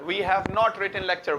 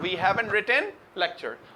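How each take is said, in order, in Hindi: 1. Have और not अलग-अलग शब्दों की तरह बोले जाते हैं। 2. Have और not एक ही शब्द में जुड़कर बोले जाते हैं।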